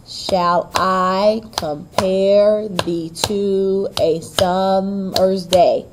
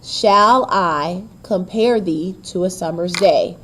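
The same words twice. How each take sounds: First: Very slow beat stressing I, PARE, TO, SUM, DAY; slow heartbeat scansion with weight on I, PARE, SUM, DAY; exaggerated iambic stress. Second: Said in the usual way. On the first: Shown as a demonstration. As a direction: draw out every syllable, light-strong, through "Shall I compare thee". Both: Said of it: "take a look at the stressed and unstressed".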